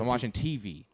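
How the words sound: The stress falls on the letter T. The speaker calls it wrong. "He goes"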